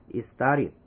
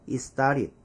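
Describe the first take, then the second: No difference in how they are said.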